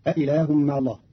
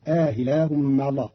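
First: Said in the usual way. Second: "آه إله" with long aa, then a softened hamza; eased second hamza. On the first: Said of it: "قرأ قالون كلمة أإله". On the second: Shown as a demonstration. Teacher shows Qalun's reading, "آه إله" with inserted alif and eased hamza. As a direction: stretch the first vowel of "آه إله" and glide into i. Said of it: "بتسهيل الهمزة الثانية بين بين مع الإدخال".

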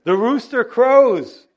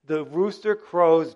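First: Loud, slow, high call of the rooster; dramatic rooster crow line. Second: Said in the usual way. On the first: Acted. Preacher booming the rooster crowing to the church.

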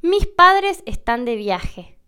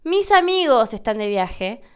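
First: Slow, aspirate the s of "Mis"; aspirated s in mis. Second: "Mis amigos" with the s linked fully onto "amigos"; full s before vowel. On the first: Teaching foreigners, a slow aspirated "Mis". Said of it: "yo puedo decir". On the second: Contrasting for learners, a clear linked s. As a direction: let the s of "Mis" run into "amigos". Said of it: "Pero si yo digo". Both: Shown as a demonstration.

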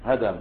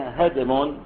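First: هدم with an open a after the dal; fatha on dal. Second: هدم with a vowelless dal; sukun on dal. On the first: Teacher names the noun for demolished building, fatha pronunciation. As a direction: say هدم as hadam, two short a vowels. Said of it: "وبفتح الدال اسم للبناء المهدوم". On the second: Teacher shows students the form with still dal, sukun pronunciation. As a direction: say هدم as hadm, no vowel after the d. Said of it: "وبالدال المهملة الساكنة". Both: Shown as a demonstration.

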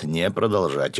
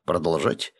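First: «не продолжать» as a statement, without questioning lift; falling, corrective tone on «не продолжать»; negating «продолжать». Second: «продолжать» as a question, rising at the end; rising, checking tone on «продолжать». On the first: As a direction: answer firmly: «не продолжать», falling at the end. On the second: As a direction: ask «продолжать», lifting the last syllable. Subordinate asks whether to continue. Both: A narrator's reading.

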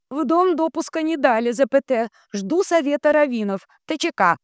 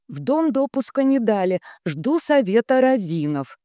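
First: Very high chanting relay; high-pitched transmitter echo; entranced telegraph operator. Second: Raised, measured reading; steady dictating voice; telegram dictation. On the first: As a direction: intone text and punctuation up high. Dunya echoes the telegram. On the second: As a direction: dictate it clearly to the operator. Ratibor dictates. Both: A narrator's reading.

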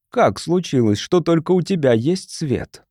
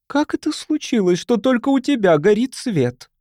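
First: Said in the usual way. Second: High, accusing question, lightly voiced judge; judge passing sentence. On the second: A narrator's reading. Mrs. Sharp questioning Charlie before the crowd, judge passing sentence. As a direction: demand an answer like a judge. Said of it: "голосом судьи, выносящего приговор".

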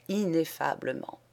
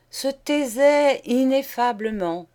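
First: Said in the usual way. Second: "Se taisait ineffablement" lifted high and loud; repeated for effect. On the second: Acted. Kimberly repeating his line for effect, raised and loud. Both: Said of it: "il répéta".

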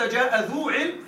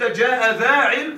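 First: Slow, deliberate "ذو" with a clear long u; teacher's slow demo of "ذو" with a long u; ذو form. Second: Slow and louder, "ذا" with a long open a; teacher's slow, louder demo of "ذا" with a long a; ذا form. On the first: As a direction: spell out "جاء ذو علم" slowly, stressing "ذو" with a long u. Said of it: "إن قلت". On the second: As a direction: stretch "جاء ذا علم" slowly, landing firmly on "ذا" with a long a. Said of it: "وإن قلت". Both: Shown as a demonstration.

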